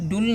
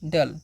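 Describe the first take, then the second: First: The vowel sounds like 'oo' in 'pull'. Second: The vowel sounds like 'uh' in 'cut'. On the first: The speaker calls it wrong. "इसे डुल नहीं पढ़ना है" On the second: The speaker calls it right. "तो इसे हम क्या पढ़ते हैं, डल"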